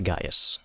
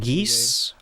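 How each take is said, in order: First: The name starts like guy, with two syllables. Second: The name sounds like the word geese. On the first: "You can also pronounce it Gaius" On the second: "Geese, as in, like, The bird? yeah"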